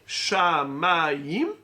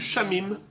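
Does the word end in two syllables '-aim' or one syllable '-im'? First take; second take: -aim; -im. First: The word ends with a two-vowel '-aim' sound. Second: The word ends with a short '-im' sound. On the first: The traditional reading meaning the sky. The speaker calls it right. "c'est le ciel, c'est Shamaim" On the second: A naive reading without the scribal tradition. The speaker calls it wrong. "J'aurais lu Shamim"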